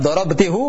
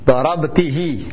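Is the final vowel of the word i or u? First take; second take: u; i. First: The word ends with the syllable hu. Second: The word ends with the syllable hi. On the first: The speaker calls it wrong. "kalau kita paksakan tetap dorobtihu, maka tidak akan terjadi ketidakharmonisan" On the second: The speaker calls it right. "maka sama-sama harus kasrah"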